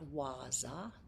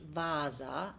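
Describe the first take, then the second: First: The word begins with a W sound. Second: The word begins with a V sound. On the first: The speaker calls it wrong. "not Waza" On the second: The speaker calls it right. "it's pronounced Vasa"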